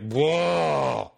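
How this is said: The name is squeezed into one long syllable. This is how people living in the city say it. "It's just one long syllable"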